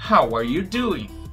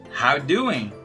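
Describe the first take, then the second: First: Every word is said fully and separately. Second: The middle words are squeezed almost away.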